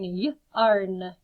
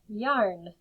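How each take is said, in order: First: Y-arn split into y and arn; segmented yarn. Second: Said in the usual way. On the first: Shown as a demonstration. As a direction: pull y-arn apart into its sounds. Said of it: "teacher segmenting sounds". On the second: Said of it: "blended back together".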